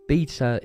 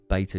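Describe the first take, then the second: First: The word is said with an English pronunciation. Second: The word is said with an American pronunciation. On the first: "English way of saying it" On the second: "the American way of saying it"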